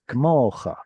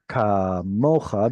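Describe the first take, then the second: First: The first vowel is reduced almost to nothing. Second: The first vowel is given its full length. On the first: The speaker calls it wrong. "You're reducing them" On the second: The speaker calls it right. "And kamocha becomes kmocha"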